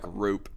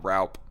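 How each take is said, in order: First: The vowel sounds like 'oo' in 'hoop'. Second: The vowel sounds like 'ow' in 'cow'. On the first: The speaker calls it right. "I'm just gonna pronounce it like Roop" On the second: The speaker calls it wrong. "not Raup"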